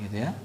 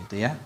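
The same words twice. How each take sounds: Both takes have the same delivery.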